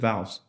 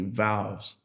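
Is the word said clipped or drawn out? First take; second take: clipped; drawn out. First: The word is said quickly with a short vowel. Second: The word is said slowly with a stretched vowel. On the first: This is how a northerner would say it. "somebody up north probably would have just said valves. Nice, quick, and easy" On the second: This is how a Texan would say it. "Down here, we might just say it slowly"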